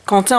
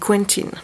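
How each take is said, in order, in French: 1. Le nom se prononce à la française. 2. Le nom se prononce à l'anglaise.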